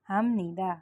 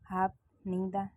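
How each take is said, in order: First: The first syllable ends with an m sound. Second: The first syllable ends with a p sound. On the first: The speaker calls it right. "फ और न मिल के म साउंड करते हैं, म बोलना होता है।" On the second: The speaker calls it wrong. "हम हाप नीदा नहीं बोलेंगे"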